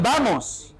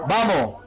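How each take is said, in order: First: The final S is fully pronounced. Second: The final S is dropped. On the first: "ya no dicen vamos" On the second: "suprimen el sonido de la S"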